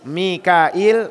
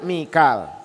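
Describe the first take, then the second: First: The name is said with three syllables. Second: The name is said with two syllables. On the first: This is the form used in this narration. "Ini Mikail" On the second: This is the form used in the Quran reading. "Kalau kita di Quran bacanya Mikal"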